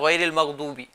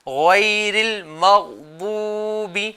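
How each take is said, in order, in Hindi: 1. इसे जल्दी-जल्दी बोला गया है, शब्द आपस में मिले हुए। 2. इसे धीरे बोला गया है, लंबी मात्रा को रोककर। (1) "इसमें बहुत ज़्यादा जल्दी कर रहे होते हैं, जिसकी वजह से अल्फाज जो है गलत हो जाते हैं" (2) "इसमें जल्दी नहीं करना है।"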